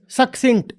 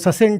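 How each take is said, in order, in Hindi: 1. पहला c k है, दूसरा c s है। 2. दोनों c का उच्चारण s होता है। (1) "एक सी कुछ बोल रहा है, दूसरा सी कुछ और बोल रहा है" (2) "अगर दो सी हैं तो दोनों सी सी ही हैं"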